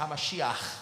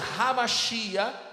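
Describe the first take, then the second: First: The word ends with a throaty rasping sound. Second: The word ends on an open vowel.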